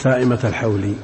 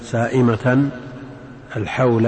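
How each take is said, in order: First: The first word ends without -n, joined to the second. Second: The first word ends in -n, set apart from the second. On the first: The two words form one possessive phrase. "إن أضفت تقول سائمة الحول" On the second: The second word stands apart as a separate object. "وإن قطعت قلت"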